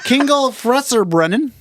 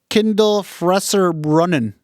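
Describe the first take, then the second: First: The first word has a hard g sound. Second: The first word has a d and l sound. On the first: The speaker calls it wrong. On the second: The speaker calls it right.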